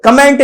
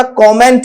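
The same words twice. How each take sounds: First: "कमेंट" with a weak first vowel; short uh after the k of "कमेंट"; wrong pronunciation. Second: "कमेंट" with a rounded o; correct pronunciation. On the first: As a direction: say "कमेंट" as kuh-MENT. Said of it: "कमेंट नहीं होता". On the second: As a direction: say "कमेंट" as KAW-ment. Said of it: "कमेंट होता है". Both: Shown as a demonstration.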